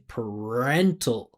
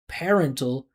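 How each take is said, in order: First: The first syllable has a reduced vowel. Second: The first syllable has a full vowel. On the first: The speaker calls it right. "make it a reduction because it's unstressed. I wouldn't pronounce the vowel sound" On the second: The speaker calls it wrong. "She's saying par"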